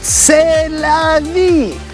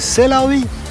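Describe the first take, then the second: First: It is said in a cheerful, upbeat mood. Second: It is said in a resigned, shrugging mood. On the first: This is the good life. The speaker calls it right. "Здесь надо говорить c'est la vie" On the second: Nothing can be done about it. The speaker calls it wrong. "нельзя говорить об этом комплексе с таким настроением"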